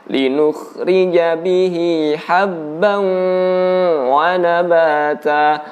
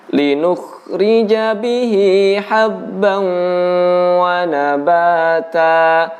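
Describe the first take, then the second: Both takes have the same delivery.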